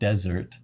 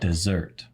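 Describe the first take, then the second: First: The stress is on the first syllable. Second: The stress is on the second syllable.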